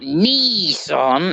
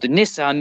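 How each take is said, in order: First: The name is said with an American pronunciation. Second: The name is said with a British pronunciation. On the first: This is the way the listeners say it. The speaker calls it wrong. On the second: This is the speaker's own way of saying it. The speaker calls it right.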